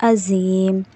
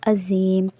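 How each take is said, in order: Both takes have the same delivery.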